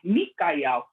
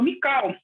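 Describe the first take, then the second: First: The name is said with three syllables. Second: The name is said with two syllables. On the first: The speaker calls it right. "a forma correta de pronunciar o nome. É Micael" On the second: The speaker calls it wrong. "a gente falava Mical. A gente não entendia"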